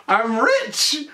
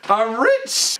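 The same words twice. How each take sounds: First: High, gleeful "I'm rich!"; excited shout. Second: High, gleeful "I'm rich!" rising; excited repeat. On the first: Herman looks at the check, gleeful cry. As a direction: crow it with delight. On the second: Herman repeats his win, gleeful cry. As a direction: keep crowing with joy. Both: Retold or imitated. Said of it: "he goes".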